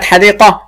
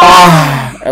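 First: Second حديقة fully voweled as hadiiqatun; voweled ending. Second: حديقة ending in a breathed h, hadiiqah; sukun ending. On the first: Teacher recapping for a pupil, حديقة as hadiiqatun. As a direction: sound "-tun" at the end of حديقة. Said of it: "طب هقف عليها بالسكون". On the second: Teacher pausing on the word, حديقة as hadiiqah. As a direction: let حديقة close on h instead of t. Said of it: "هقف عليها بالسكون". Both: Shown as a demonstration.

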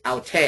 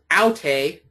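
First: "aute" with the weight on TE; second-syllable stress. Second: "aute" with the weight on AU; first-syllable stress. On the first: Teacher recapping the personal pronoun for students, "aute" accented on the second syllable. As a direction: save the stress for the end of "aute". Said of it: "the personal pronoun is". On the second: Teacher recapping the demonstrative for students, "aute" accented on the first syllable. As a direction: punch the opening syllable of "aute". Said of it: "So the demonstrative is". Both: Shown as a demonstration.

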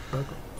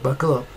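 First: "Buckle up" repeated much softer; quiet echo. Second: Said in the usual way. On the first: Shown as a demonstration. Teasing viewers before the butter news, much softer. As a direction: echo "Buckle up" under the breath, far softer. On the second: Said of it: "Get ready for it".

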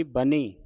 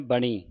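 First: ਬਣੀ said with n at the teeth, "ba-nee"; tongue forward for the n in ਬਣੀ; ਬਣੀ with dental n, the corrected reading; plain dental n. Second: ਬਣੀ with a retroflex ṇ; ਬਣੀ as "ba-ṇee", the mistaken reading. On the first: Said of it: "ਨੰਨੇ ਦੀ ਆਵਾਜ਼ ਉਚਾਰਨ ਹੋਵੇਗੀ". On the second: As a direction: curl the tongue back for the n in ਬਣੀ. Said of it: "ਨਾਣੇ ਦੀ ਆਵਾਜ਼ ਕੱਢਦੀਆਂ". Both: Shown as a demonstration.

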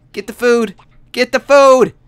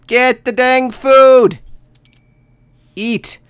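First: Urgent. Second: Much higher and louder, slowly drawn out; frantic. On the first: Urging starving Sim to eat. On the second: Player begs the starving Sim to eat, slow frantic yell. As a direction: stretch each word in desperation. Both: Real, not acted.

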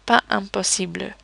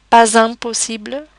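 First: "pas impossible" with silent S, vowels apart; without liaison. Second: "pas impossible" with S linked as Z; with liaison. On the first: Teacher shows the other option, "pas impossible" without Z. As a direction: say pa, then impossible, no Z between. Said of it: "without the liaison". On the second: Teacher shows both options, "pas impossible" with a Z link. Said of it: "the following phrase without the liaison". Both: Shown as a demonstration.

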